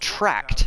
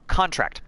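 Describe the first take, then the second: First: It is pronounced as the verb form. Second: It is pronounced as the noun form. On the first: It names an action. "it's a verb" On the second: It names an item. "contract the way I just did, it's a noun"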